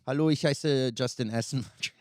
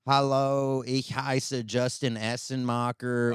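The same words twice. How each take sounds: First: It is spoken with a native German accent. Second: It is spoken with an American accent. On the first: A native German speaks this way. The speaker calls it right. "Say it like a real German" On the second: Someone else speaks German this way. The speaker calls it wrong. "an American accent when he speaks German now"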